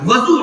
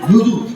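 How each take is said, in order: First: The first vowel is an 'a' sound. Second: The first vowel is a 'u' sound. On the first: The speaker calls it wrong. "वापस जबर नहीं, वजू नहीं" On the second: The speaker calls it right. "वुजू कहा कीजिए"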